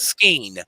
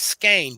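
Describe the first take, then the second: First: The word is said with a regional pronunciation. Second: The word is said with the standard pronunciation. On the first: The speaker calls it wrong. "where I was raised back home in the holler, I I I can't change it" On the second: The speaker calls it right. "corrected the pronoun correct pronunciation is skein"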